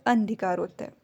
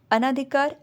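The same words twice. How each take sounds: First: अनधिकार with short अ at the start; correct form. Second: अनाधिकार with long आ at the start; wrong form. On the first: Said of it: "जो कि शुद्ध शब्द है". (अनधिकार सही रूप, छोटा अ) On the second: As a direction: say अनाधिकार, stretching the first आ. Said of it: "अनाधिकार नहीं होता है". (अनाधिकार गलत रूप, लंबा आ) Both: Shown as a demonstration.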